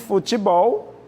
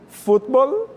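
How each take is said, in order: First: The stress is on the last syllable. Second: The stress is on the first syllable. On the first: "nós temos bol" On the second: "fut é a tônica"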